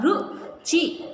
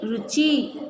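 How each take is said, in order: First: Ruchi stretched very slowly; teacher stretching Ruchi; slow sounding out. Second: Said in the usual way. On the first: Shown as a demonstration. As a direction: draw out Ruchi syllable by syllable. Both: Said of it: "हो जाएगा रु".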